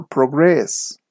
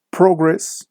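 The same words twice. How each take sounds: First: ProGRESS, second syllable drawn out, falling; verb stress. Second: PROgress, high first syllable; noun stress. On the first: Teacher shows students the verb form, slow stress on GRESS in "progress". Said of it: "the stress is on the second syllable". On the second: Teacher shows students the noun form, stress on PRO in "Progress". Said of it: "the stress is on the first syllable". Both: Shown as a demonstration.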